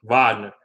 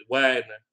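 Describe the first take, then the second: First: "Wagner" said the German way, with a V sound at the start; "Wagner" as German VAHG-ner; German pronunciation. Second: Said in the usual way. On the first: Shown as a demonstration. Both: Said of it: "that's how you pronounce it in German".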